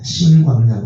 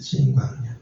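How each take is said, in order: First: The name begins with a soft 's' sound. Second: The name begins with a tense 'jj' sound. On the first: The speaker calls it wrong. "신광야가 아니라" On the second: The speaker calls it right. "찐에 가까워요"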